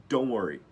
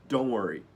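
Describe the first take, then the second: The two takes are said the same way.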